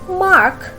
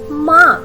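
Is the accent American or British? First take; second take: American; British. First: It is said with an American accent. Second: It is said with a British accent. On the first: "It should be mark in American English" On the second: "but in British English it's M A R K, mark"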